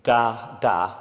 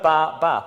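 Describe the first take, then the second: First: "da" said twice, short and clear; da syllables. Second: "ba" said twice, short and clear; ba syllables. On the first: Speaker demonstrating the da sound to the hall. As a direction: sound out "da, da" as an example. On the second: Speaker demonstrating the ba sound to the hall. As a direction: sound out "ba, ba" as an example. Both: Shown as a demonstration. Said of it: "If you heard".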